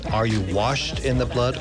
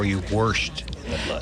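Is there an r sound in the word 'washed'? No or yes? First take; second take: no; yes. First: The word washed has no r sound. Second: The word washed has an added r sound.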